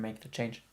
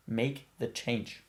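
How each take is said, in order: First: Said in the usual way. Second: Slow emphatic urging; slow, deliberate repeat. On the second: Real, not acted. Urging a listener to heed the inner voice, slow and deliberate. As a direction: make the change, drawn out word by word.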